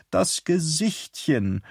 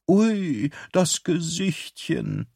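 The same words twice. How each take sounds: First: Slow cooing over a puppy; Bernadette's doting coo. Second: High, slow cooing over a puppy; drawn-out baby talk to a dog; doting coo. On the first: A narrator's reading. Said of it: "sagte sie immer". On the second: Acted. Waitress coos over the dog.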